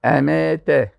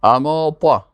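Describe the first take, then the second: First: اماته with a light t and front e vowels. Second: اماته with a heavy ط and dark a vowels; dark, full ط in اماته; heavy emphatic T. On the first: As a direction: say اماته thinly, like emete. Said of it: "اما به تی". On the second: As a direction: say اماته thickly, like amaata with emphatic t. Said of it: "اینجا با تا هست". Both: Shown as a demonstration.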